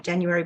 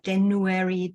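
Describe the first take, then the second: First: Said in the usual way. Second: January without the y glide before the u; yod-dropping. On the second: Shown as a demonstration. Lecturer showing an old Cockney feature, yod-dropping. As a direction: say January as "Jan-oo-ary", slowly. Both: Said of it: "we also have yaw dropping".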